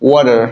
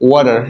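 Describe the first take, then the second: The two takes are said the same way.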